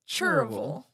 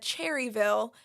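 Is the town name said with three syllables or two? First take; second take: two; three. First: The name is shortened to two syllables. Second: The name is said with three full syllables. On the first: This is how locals say it. "people around here mostly pronounce it Cherville" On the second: The speaker is not from the area. "you said Cherryville"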